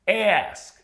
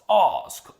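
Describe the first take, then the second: First: The vowel is a short front 'a' sound. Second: The vowel is a long open 'ah' sound. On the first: "the Americans pronounce those words with the air sound" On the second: "this here is the British R as"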